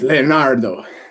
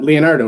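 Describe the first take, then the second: First: The name is said with a heavy Italian accent. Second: The name is said with a plain English accent. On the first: "very heavy accented Italian" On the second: "it's not Leonardo"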